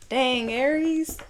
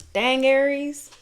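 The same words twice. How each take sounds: First: High, slow wondering dang; drawn-out dang. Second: High, loud surprised exclamation; surprised dang. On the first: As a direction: draw it out, shaking your head. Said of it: "repeating the reaction". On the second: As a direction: gasp it out at the cards. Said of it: "reacting to the cards". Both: Real, not acted.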